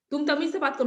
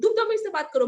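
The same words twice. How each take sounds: First: Said in the usual way. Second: High and loud, hitting तुम hard; angry shout imitated. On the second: Uncle repeating his demand, loud mock anger. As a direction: snap it back like furious uncle. Uncle and her quarrel retold.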